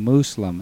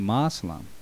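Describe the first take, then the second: First: The first vowel is an 'oo' sound. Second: The first vowel is an 'o' sound. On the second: "I know some people say Moslem"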